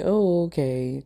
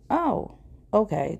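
First: "Oh" stretched long in an odd put-on voice, "okay" let fall; a dry, sceptical "oh... okay"; drawn-out unimpressed oh okay. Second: "Oh" jumps very high, then "okay" drops flat; a startled, caught-off-guard squeak on "Oh"; surprised oh okay. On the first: Retelling her reaction again. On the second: Retold or imitated. Date says he came to bask.

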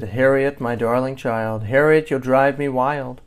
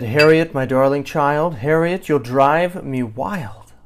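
First: Restrained exasperation. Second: Loud, strained sweetness ending in a drawn-out wail; exasperated mother straining not to yell; mounting exasperation. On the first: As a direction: scold lightly without yelling. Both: A narrator's reading. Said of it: "Her mother didn't like to yell".

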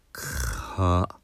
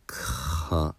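First: か dragged out on the bare K, like phlegm in the throat; held K consonant. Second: Said in the usual way. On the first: Shown as a demonstration. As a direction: stretch the K of か with no vowel. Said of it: "痰が絡んだような音になりますけど". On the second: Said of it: "おかしいですよね".

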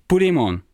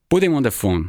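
First: Mildly angry, higher-pitched demand; starting to get angry. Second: A touch of impatience, slightly higher; brisk demand with mild impatience; impatient. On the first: Tirza repeating her demand on the phone, starting to sound angry. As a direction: let a little anger rise in the voice. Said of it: "starting to sound angry". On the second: Tirza on the phone to the narrator, impatient. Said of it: "she says impatiently". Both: A narrator's reading.

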